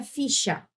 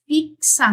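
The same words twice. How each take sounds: First: FICHA with a single sh sound, fi-sha. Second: FIXA pronounced fik-sa, X as two sounds. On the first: Teacher giving the contrasting pronunciation, a sh sound. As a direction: say FICHA with sh, without any k. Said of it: "não é ficha". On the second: Teacher showing how X is pronounced, crisp k-s sound. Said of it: "Veja que eu falo assim". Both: Shown as a demonstration.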